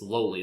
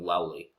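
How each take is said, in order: First: The first vowel sounds like in 'low'. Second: The first vowel sounds like in 'owl'. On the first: This is the actual word. The speaker calls it right. "it's Lowly" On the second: This is how it is misread in one's head. The speaker calls it wrong. "you're pronouncing it Owly in your head"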